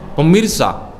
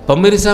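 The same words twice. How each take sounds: First: It is said sharply and dramatically, like investigative news. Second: It is said calmly, flowing straight into the sentence. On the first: The speaker calls it wrong. "kayak uh, berita investigasi, setajam silet" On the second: The speaker calls it right. "Berarti harus begini"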